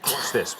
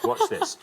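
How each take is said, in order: First: Said in the usual way. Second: Laughing tease. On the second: Acted. Host teasing contestant's job.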